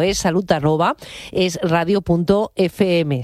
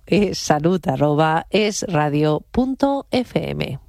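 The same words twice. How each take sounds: First: It is said at normal speed. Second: It is said a little more slowly.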